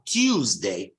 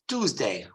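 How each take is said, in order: First: It is said in a British English way. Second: It is said in an American English way. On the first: "the correct pronunciation in British English is Tuesday" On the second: "The American English is Tuesday"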